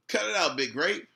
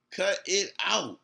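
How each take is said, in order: First: Said in the usual way. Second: Slow, spaced-out "Cut it out"; word-by-word emphasis. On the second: Real, not acted. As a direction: say "Cut it out" slowly, each word separate. Repeats it word by word.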